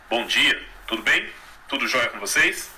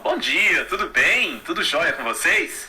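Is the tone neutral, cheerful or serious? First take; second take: serious; cheerful. First: The tone is serious and closed. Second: The tone is cheerful and happy.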